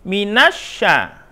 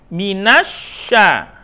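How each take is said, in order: No difference in how they are said.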